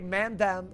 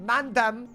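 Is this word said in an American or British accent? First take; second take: American; British. First: It is said in an American accent. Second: It is said in a British accent. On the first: The speaker calls it wrong. "But we say mandem" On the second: The speaker calls it right. "apparently it's supposed to be mandem"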